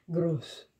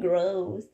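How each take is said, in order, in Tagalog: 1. Binibigkas ito na may r na galing sa lalamunan, gaya ng Aleman. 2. Binibigkas ito na parang salitang Ingles. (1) "Like, er" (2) "Like hindi gross"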